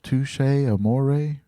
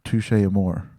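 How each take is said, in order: First: The second word ends with a sounded e vowel. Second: The second word ends without a final vowel. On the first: "with that accent under the e on amore, is that how it goes?" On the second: "I always thought amour was just um"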